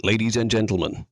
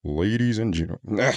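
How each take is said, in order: First: Announcer demo. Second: Slow, low forced deep voice; too low voice. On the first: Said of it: "Don't change your accent". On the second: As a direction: push it down too far. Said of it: "You're going too low". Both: Shown as a demonstration.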